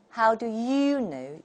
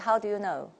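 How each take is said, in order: First: The vowel in 'you' is full and rounded. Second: The vowel in 'you' is weak and unrounded. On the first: The speaker calls it right. "圆唇" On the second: The speaker calls it wrong. "How many people say"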